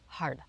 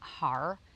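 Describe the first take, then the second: First: The word ends in a d-like sound. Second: The word ends in a plain r sound. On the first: The speaker calls it right. "but it's hard" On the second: The speaker calls it wrong. "It's not har"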